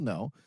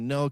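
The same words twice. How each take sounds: First: The word is said plainly, without extra force. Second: The word is said with strong, forceful emphasis. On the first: It is just a simple refusal. "a simple no" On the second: The refusal carries strong meaning. "very emphasized and say with meaning"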